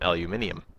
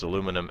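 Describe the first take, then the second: First: It has five syllables, ending in -nium. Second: It has four syllables, ending in -num. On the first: "if you go to Britain, they pronounce aluminum aluminium" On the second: "we in North America are stubborn"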